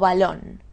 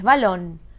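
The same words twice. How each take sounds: First: The stress is on the first syllable. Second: The stress is on the last syllable. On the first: The speaker calls it wrong. "¿Es balón o balón?" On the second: The speaker calls it right. "Es balón. ... Aguda"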